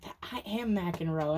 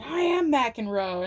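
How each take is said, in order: First: Said in the usual way. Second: Loud, slow and proud; defiant declaration. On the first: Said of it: "I just heard that line". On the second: Retold or imitated. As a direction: declare it like a champion. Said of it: "And Cameron Diaz is like".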